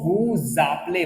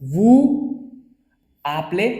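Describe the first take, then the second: First: A z sound links the two words together. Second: The words are said without a linking z sound. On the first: "जब ये अटैच होगा तो इस एट को करेगा" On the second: "इसका तो एस तो हटाया मैंने"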